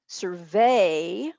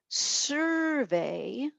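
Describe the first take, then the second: First: The stress is on the last syllable. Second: The stress is on the first syllable. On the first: It is a verb. "where the accent is at the end" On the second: It is a noun. "is a noun"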